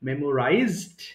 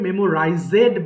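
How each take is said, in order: First: The ending is a plain 'd' sound. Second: The ending is an extra 'ed' syllable. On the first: The speaker calls it right. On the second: The speaker calls it wrong.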